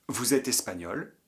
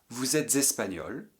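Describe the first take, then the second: Both takes have the same delivery.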